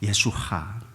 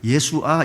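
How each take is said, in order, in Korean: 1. 이 이름은 숨소리 섞인 h 소리로 끝나요. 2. 이 이름은 평범한 모음으로 끝나요. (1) "유대인들은 항상 뒤에 헤이를 붙여요" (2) "우리는 예수아 이렇게 하는데 예수아가 아니고"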